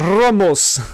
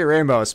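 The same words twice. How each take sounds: First: The R is rolled strongly. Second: The R is plain, not rolled. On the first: The speaker calls it wrong. "when people are rolling their R's excessively" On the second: The speaker calls it right. "Just say Ramos"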